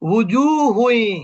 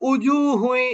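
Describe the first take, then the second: First: The word begins with a soft w sound. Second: The word begins with a glottal push. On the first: The speaker calls it right. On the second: The speaker calls it wrong.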